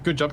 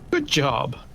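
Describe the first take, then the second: First: It sounds plain and genuinely appreciative. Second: It sounds exaggerated and condescending. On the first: The praise is genuine. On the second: The praise is mocking rather than genuine. "could you sound more patronizing?"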